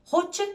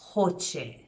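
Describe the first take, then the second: First: The final vowel is quick and short. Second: The final vowel is drawn out and long. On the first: It refers to one person. "it's it's um, quick and short" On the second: It refers to several people. "you sort of extend the e at the end"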